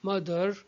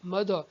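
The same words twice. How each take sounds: First: The final r sound is clearly pronounced. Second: The final r sound is dropped. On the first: "we pronounce r sound, as we say" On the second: "in British English it would be pronounced as"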